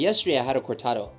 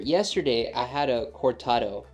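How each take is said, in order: First: It is spoken at a normal, quick pace. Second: It is spoken at a slow, careful pace.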